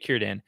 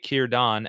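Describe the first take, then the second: First: The last syllable rhymes with man. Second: The last syllable rhymes with dawn. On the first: The speaker calls it wrong. "the Dan is pronounced like van or man in English" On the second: The speaker calls it right. "as on pond or on my way"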